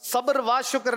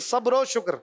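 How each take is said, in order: First: The linking word is said as a full wa. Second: The linking word is said as a short o. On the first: The speaker calls it wrong. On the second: The speaker calls it right.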